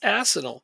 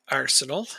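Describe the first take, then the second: First: The first syllable sounds like ass, without an r. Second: The first syllable sounds like arse, with an r.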